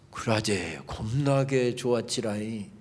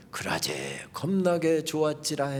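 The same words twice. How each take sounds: First: Slow, lower Jeolla saying; Jeolla dialect quote. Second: Slow, soft Jeolla saying; Jeolla dialect quote. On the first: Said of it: "사도 바울이 이렇게 이야기하고 있습니다". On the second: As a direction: savour each word in Jeolla dialect. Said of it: "마지막 문장을 택하라고 한다면". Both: Retold or imitated.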